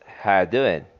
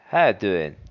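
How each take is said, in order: First: The words are reduced and 'are' is dropped. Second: The words are reduced and 'are' is dropped.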